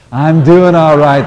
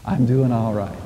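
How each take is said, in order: First: Much louder, slow, emphatic declaration; said like you mean it. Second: Said in the usual way. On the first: Shown as a demonstration. Minister urging the congregation to mean it, loud and slow. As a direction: proclaim it with full conviction. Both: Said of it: "say it like you mean it".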